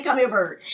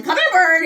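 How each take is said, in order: First: Said in the usual way. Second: Higher, coaxing call to a pet; calling the bird. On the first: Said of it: "So he learned to say". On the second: Retold or imitated. Kids calling the pet bird, higher coaxing call. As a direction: coax the bird over. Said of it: "we'd be calling him".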